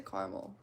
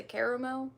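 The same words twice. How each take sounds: First: 'caramel' in two syllables, CAR-mul; own pronunciation. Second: 'caramel' in three syllables, CARE-uh-mel; others' pronunciation. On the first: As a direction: drop the middle vowel of 'caramel'. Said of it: "I say caramel". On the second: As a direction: sound the middle vowel of 'caramel'. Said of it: "some people say caramel". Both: Shown as a demonstration.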